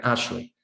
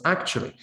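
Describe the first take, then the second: First: Actually reduced to two syllables, like Ashley; fast-speech pronunciation. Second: Actually with every syllable and the k sound kept; slow, full pronunciation. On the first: Teacher showing fast speech, actually reduced to Ashley. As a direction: squash "actually" into ash-lee, dropping the k. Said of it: "when we say it fast". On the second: Teacher showing the careful form, actually pronounced in full. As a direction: say "actually" in full, as ak-chu-a-lee. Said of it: "When pronounced slowly". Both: Shown as a demonstration.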